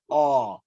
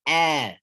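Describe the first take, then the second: First: The vowel sounds dark and rounded, like aw. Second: The vowel sounds light and open, like ah. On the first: The speaker calls it wrong. "If I keep the back part of my tongue up, it's going to pronounce what?" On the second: The speaker calls it right. "No, it's ah. Ah like alligator"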